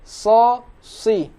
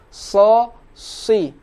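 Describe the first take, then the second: No difference in how they are said.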